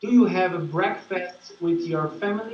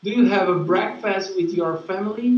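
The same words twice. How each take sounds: First: "breakfast" and "family" set apart by pauses; halting reading. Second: Quicker, joined-up "breakfast with your family"; no pauses. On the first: Student reads the question aloud to teacher, with halting pauses. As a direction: read it in chunks, pausing before "with your family". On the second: Student repeats for the teacher, fast and without pauses. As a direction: read the whole question briskly in one go. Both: Real, not acted. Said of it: "No pauses".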